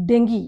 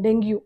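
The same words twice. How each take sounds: First: డెంగీ ending in a plain "ghee"; crisp model of డెంగీ ending in "gee"; corrected pronunciation. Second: డెంగ్యూ ending in a "gyoo" glide; the usual wrong "deng-gyoo" in డెంగ్యూ; common mispronunciation. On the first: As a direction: say డెంగీ as deng-gee, no yoo. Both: Shown as a demonstration. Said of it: "అది డెంగ్యూ కాదు".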